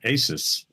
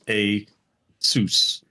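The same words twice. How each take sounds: First: The word ends like the end of Pegasus. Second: The word does not end like Pegasus. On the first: The speaker calls it wrong. "I've always pronounced it Asus because it's the last four letters of the word Pegasus" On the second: The speaker calls it right. "apparently the correct pronunciation is"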